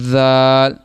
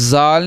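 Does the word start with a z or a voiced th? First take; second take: voiced th; z. First: The word starts with a voiced th sound. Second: The word starts with a buzzing z sound. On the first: The speaker calls it right. "ज़ुबान का सिरा और ऊपर वाले दांतों के अंदरूनी किनारे से" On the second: The speaker calls it wrong. "जाल नहीं"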